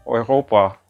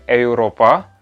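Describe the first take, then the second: First: The word begins with an oy sound. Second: The word begins with a plain e sound. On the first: The speaker calls it right. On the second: The speaker calls it wrong.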